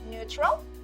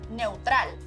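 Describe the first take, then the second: First: The first vowel is a single 'oo' sound. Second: The first vowel glides from 'eh' to 'oo'. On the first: "in English we had the three different sounds for the same vowel combination" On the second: "in Spanish, the sound stays the same. Eu"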